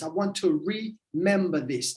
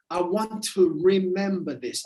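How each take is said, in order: First: "remember" broken with a pause after re-; remember split apart. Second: Said in the usual way. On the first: Shown as a demonstration. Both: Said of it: "become a member of this".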